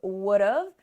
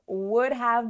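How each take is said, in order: First: Have is shortened to a v sound. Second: Have is pronounced in full as a separate word. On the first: "when we contract" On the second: "Would have becomes would've"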